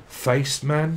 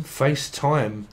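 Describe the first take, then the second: First: "Face man" said as two words, puzzled rising; misheard word. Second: "FaceTime" said slowly as one word, settling it; corrected word. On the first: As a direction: wonder aloud at "Face man". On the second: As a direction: realise it's "FaceTime" and say it slowly. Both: Shown as a demonstration.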